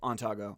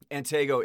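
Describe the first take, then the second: First: The name is said in a Spanish-influenced form. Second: The name is said in its original form. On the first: This is how others often said the name. "a lot of Spanish people thought it was Ontago" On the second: This is how the name technically sounds. "Antego is the original pronunciation"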